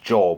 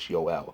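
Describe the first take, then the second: First: The name is said in an English way. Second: The name is said in a European way. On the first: The speaker calls it wrong. "We kind of anglicize it as Joel" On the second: The speaker calls it right. "but it's Joel"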